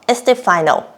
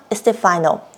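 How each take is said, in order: Both takes have the same delivery.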